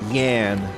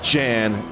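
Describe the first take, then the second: First: The name begins with a 'y' sound. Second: The name begins with a 'j' sound. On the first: The speaker calls it right. "I needed to be corrected on that" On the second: The speaker calls it wrong. "Not Jan"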